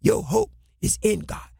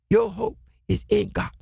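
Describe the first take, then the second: No difference in how they are said.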